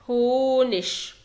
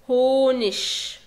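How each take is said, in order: First: The word ends with a soft 'ch' sound. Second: The word ends with a soft 'ch' sound.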